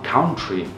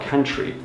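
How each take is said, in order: First: The vowels are read as spelled, Portuguese-style. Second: The vowels are said the native English way. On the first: The learner expects it to sound as it is written. "a pessoa vê o U, uh, deve falar country" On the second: This is how a native speaker actually says it. "aí o cara fala country"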